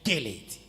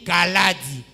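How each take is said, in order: First: The ending sounds like the English word lady. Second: The name is said with plain French vowels. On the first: The name was distorted by an English reading. The speaker calls it wrong. "comme on dit Lady" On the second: This is the name as its owner says it. The speaker calls it right. "Au lieu de dire Kaladi"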